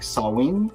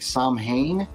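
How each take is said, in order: First: The word is pronounced unlike its spelling. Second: The word is pronounced the way it is spelled. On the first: The speaker calls it right. "I've learned that it's like Samhain" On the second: The speaker calls it wrong. "it looks like Samhain"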